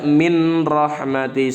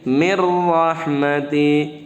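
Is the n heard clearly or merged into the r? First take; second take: clear n; merged. First: A clear n is heard before the r. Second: The n merges fully into the following r. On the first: The speaker calls it wrong. "Jangan dibaca min rahmati, salah" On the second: The speaker calls it right. "Tapi mir rahmati"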